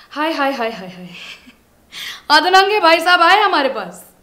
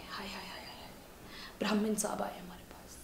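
First: Loud, high theatrical announcement; mock fanfare. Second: Very soft, whispered exclamation; barely-voiced repeat of the welcome; hushed mock awe. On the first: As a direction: hail the guest at full, raised voice. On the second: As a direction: drop to a whisper as if awestruck.

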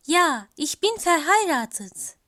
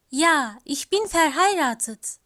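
No difference in how they are said.

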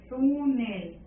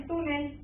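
First: "Túnel" drawn out on TÚ; "Túnel" sounded out with a long, stressed TÚ; stress on first syllable. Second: Said in the usual way. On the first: Shown as a demonstration. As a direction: stretch the first syllable of "Túnel", TÚÚ-nel. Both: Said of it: "porque ahí está la sílaba tónica".

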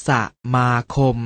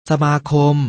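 First: สะ, short pause, มาคม; syllable by syllable. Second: Said in the usual way. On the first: Shown as a demonstration. Teacher showing an exception, สะ-มา-คม in separated syllables. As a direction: set สะ apart from มาคม. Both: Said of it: "อ่านว่า".

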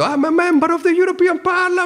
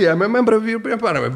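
First: High-pitched, strained protest cry; hammed-up yell in Italian-accented English; retold shouting. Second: Quick, high mock protest; lighter, hurried replay of a yell; retold shouting. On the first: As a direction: cry it out far above your usual pitch. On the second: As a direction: rattle off the cry fast and high. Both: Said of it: "di me che grido".

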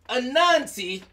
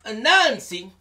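No difference in how they are said.

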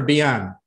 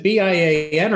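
First: Bian said as one word, bee-AHN; read as a word. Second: B I A N said letter by letter; spelled out. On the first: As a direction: run Bian together as a name, not letters. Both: Shown as a demonstration. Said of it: "is it B I A N or Bian".

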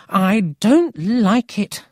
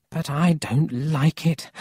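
First: Slow, loud, high stress on "don't"; emphatic misgiving. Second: Uneasy doubt. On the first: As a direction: lean hard and slowly on "don't". Grandmother repeats her worry more emphatically. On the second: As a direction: voice raised a little in doubt. Grandmother's first worried remark, then repeated. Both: Acted.

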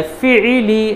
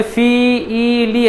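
First: Syllables run together quickly; quick and joined. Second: Each syllable said apart with a pause; separated syllables. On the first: Teacher showing students the right way, read quickly. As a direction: blend the three into one quick word. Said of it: "जल्दी पढ़ना है". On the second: Teacher showing the wrong way to students, syllables split apart. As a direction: read them one by one, not joined. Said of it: "ऐसे नहीं पढ़ना है". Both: Shown as a demonstration.

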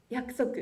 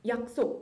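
First: 約束 read the Japanese way, as yakusoku. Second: 約束 read the Korean way, as yaksok. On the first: Student giving the matching Japanese word 約束, read yakusoku. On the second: Student giving the Korean word 約束 first, read as yaksok. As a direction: say 約束 with Korean sounds, yak-sok. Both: Shown as a demonstration. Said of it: "例えば".

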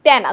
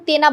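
First: তেনা with open "æ", as tæna; open vowel. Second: তেনা with closed "e", as tena; closed vowel. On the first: Teacher answers what we do say, open vowel. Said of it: "আমরা কি বলি?". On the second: Teacher shows what we do not say, closed vowel. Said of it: "আমরা কিন্তু তেনা বলি না". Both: Shown as a demonstration.

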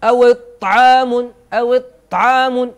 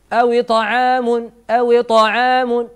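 First: "أو طعام" with a hard, held ط and no bounce; stopped, tense ط in "أو طعام", louder; ط without qalqala. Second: "أو طعام" with a bouncing echo on the ط; slow recited "أو طعام", higher, releasing ط with a small bounce; qalqala on ط. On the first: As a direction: press loudly into the ط of "طعام", no echo on release. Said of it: "لو أردت أن تشدد الحرف من غير هذا الاهتزاز لقلت". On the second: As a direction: let the ط in "طعام" rebound before moving on. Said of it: "فنتخلص من هذه الشدة بالقلقلة". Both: Shown as a demonstration.

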